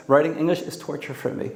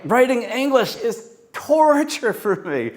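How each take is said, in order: First: Said in the usual way. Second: "torture" stretched and pained, pitched up; emotional take of the line; anguished. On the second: Shown as a demonstration. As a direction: make us feel the torture of it. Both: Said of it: "Just bring it alive with the emotion".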